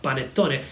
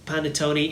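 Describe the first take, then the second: First: It is said with an Italian accent. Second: It is said with an English accent. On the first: "instead of panettone" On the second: "as an English native speaker, he pronounces panettone"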